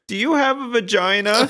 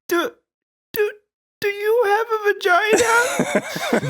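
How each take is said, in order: First: It is asked plainly and confidently. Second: It is asked sheepishly, stammering at the start.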